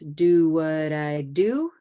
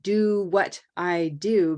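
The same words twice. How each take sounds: First: The words run together in one rhythmic flow. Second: Each word is said separately and distinctly. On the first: "feel the rhythm of the music" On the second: "stop thinking about the individual words"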